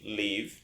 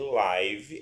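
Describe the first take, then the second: First: The vowel does not sound like 'life'. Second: The vowel sounds like the one in 'life'. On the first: It means to reside somewhere. "daí quer dizer que é o verbo morar" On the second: It means happening in real time. "porque provém da life"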